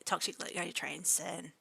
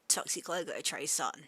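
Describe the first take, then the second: First: The name is said with English-style vowels. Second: The name is said with Japanese-style vowels. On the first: The speaker calls it wrong. "if I'm reading it and then in English letters" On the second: The speaker calls it right. "I might refer to you as"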